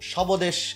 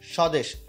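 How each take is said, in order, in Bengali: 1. 's'-এর পরে 'b' ধ্বনি উচ্চারিত হয়। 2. 's'-এর পরে কোনো 'b' ধ্বনি উচ্চারিত হয় না। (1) "এরকম কিন্তু না" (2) "বফলা কিন্তু উচ্চারণ হলো না"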